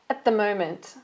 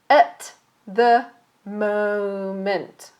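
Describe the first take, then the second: First: The phrase is said quickly, sounds run together. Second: The phrase is said slowly, each sound separate. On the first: "and then fast"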